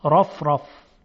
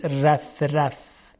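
First: Heavy, thick ر in «رف رف»; full dark r with a backed a in «رف رف»; تفخیم. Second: Light r with a fronted a in «رف رف»; wrong thin ر. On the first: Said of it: "در صورتی که تفخیم بشه". («رف رف» با رای درشت و مفخم) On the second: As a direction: mispronounce «رف رف» with a thin r. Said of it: "هیچ وقت نمیگیم". («رف رف» با رای نازک و غلط) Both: Shown as a demonstration.

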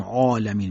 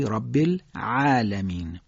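First: "عالمین" with a dark, back "aa" as a mistake; wrong heavy ain. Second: Slow "رب العالمین" with thin, fronted long "a" after ain; careful correct demonstration; correct light ain. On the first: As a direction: say "عالمین" too thick and full-mouthed. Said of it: "پس نمیگیم عالمین". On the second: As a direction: recite "العالمین" lightly and drawn out. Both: Shown as a demonstration.

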